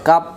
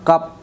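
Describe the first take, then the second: First: The word ends in a closed p sound. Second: The word ends in a closed p sound.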